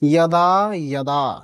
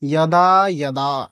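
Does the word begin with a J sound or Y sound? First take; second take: Y sound; Y sound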